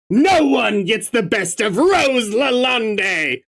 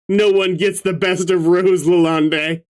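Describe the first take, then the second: First: It is read like a gloating villain's speech. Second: It is read plainly, not like a villain.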